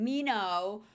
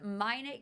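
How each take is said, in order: First: The name is said the French-sounding way. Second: The name is said the local, English way. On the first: The speaker calls it wrong. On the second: The speaker calls it right.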